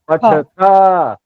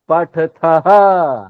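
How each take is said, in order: First: The word ends on a plain vowel. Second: The word ends with a breathy h sound. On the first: "आ लगेगा, सिर्फ आ" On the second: "आ के साथ ह लग जाएगा"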